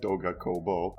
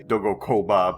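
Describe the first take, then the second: First: The last word ends in an 'oh' sound. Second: The last word ends in an 'ah' sound. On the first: The speaker calls it right. "but it's the other way around" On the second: The speaker calls it wrong. "I always want to say Doga Koba"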